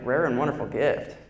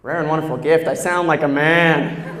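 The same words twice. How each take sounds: First: Lower, mannish echo of the compliment; mock deep voice. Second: Low and louder, scoffing; mock deep voice. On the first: Scoffing at the teacher's compliment, low and mannish. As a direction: drop it low like a man's voice. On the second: Repeating the teacher's praise, louder and low like a man. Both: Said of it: "I'm like".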